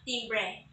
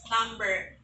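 First: The first vowel sounds like 'i', as in 'tim'. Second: The first vowel sounds like 'a', as in 'tam'. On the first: The speaker calls it wrong. "and not timbre" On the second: The speaker calls it right. "The right pronunciation is timbre ... You will sound the letter I there as letter A"

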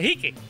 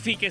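First: The word begins with a throaty h sound. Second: The word begins with an f sound. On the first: "sino se pronuncia la J" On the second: "En vez de decir fique"

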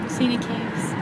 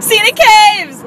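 First: It is said at normal volume. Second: It is said loudly and excitedly.

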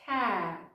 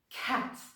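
First: The final T is held back and nearly disappears. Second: The final T is released with a burst of air. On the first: The speaker calls it right. "Вони кажуть cat, Ніби звук Т взагалі зникає" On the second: The speaker calls it wrong. "нейтіви не кажуть cat"

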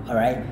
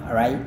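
Both takes have the same delivery.

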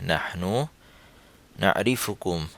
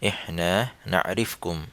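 First: It is said in Standard Arabic pronunciation. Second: It is said in a Saudi dialect pronunciation. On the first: "standard উচ্চারণে" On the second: "Saudi উচ্চারণে"

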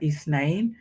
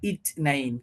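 First: The middle consonant is a soft 'th' sound. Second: The middle consonant is a plain 't' sound. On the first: This is the standard Arabic form. "আরবিতে শব্দটা ইসনাইন" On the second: This is the local Gulf form. "তবে আপনার এটা উচ্চারণ হবে ইচনাইন, কি ত দিয়ে হবে, থ না"

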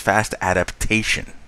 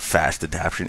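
First: The last word has four syllables: a-dap-ta-tion. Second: The last word has three syllables: a-dap-tion. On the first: The speaker calls it right. "It is fast adaptation" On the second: The speaker calls it wrong. "it is not fast adaption"

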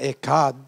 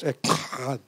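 First: The word is said plainly, without a forceful sound. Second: The word is said forcefully, nasal, like spitting. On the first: The speaker calls it wrong. "Some say Echad. Not Echad" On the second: The speaker calls it right. "it's got to be nasal... come out of your nose. Like you're spitting out"

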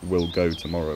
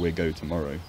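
First: The L in we'll is clearly pronounced. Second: The L in we'll becomes a vowel or disappears.

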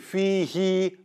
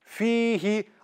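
First: The final vowel after the h is stretched long. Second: The final vowel after the h is short. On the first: The speaker calls it wrong. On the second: The speaker calls it right.

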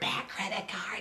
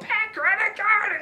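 First: The phrase is whispered in a quiet, breathy voice. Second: The phrase is yelled in a loud, strained voice. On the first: "I'll whisper it" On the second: "I'll still do the bit. I'll still go"

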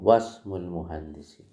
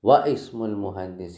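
First: The 'i' is dropped, so wa joins smul. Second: The 'i' of ismul is pronounced separately after wa. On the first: The speaker calls it right. "ഹംസത്തുൽ അസൽ ഉച്ചരിക്കൂല" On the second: The speaker calls it wrong. "വ ഇസ്മുൽ മുഹന്ദിസി എന്ന് വായിക്കൂല"

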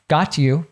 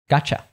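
First: The t and y sounds stay separate. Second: The t and y merge into ch.

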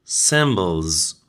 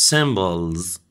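The two takes are said the same way.

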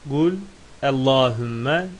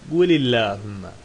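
First: Qul ends with no vowel before Allahumma. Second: An i vowel links qul to the next word. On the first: This is how it is written. "Gul sükunlu yazılır" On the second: This is how it is read aloud. "Oradaki lam esrelenir"

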